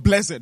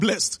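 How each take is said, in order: First: The word is said with strong emphasis. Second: The word is said plainly without emphasis. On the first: The speaker calls it right. "this one is blessed to have emphasis" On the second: The speaker calls it wrong. "not blessed"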